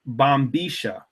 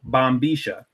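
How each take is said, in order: First: It is said in the Buenos Aires Porteño accent. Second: The same.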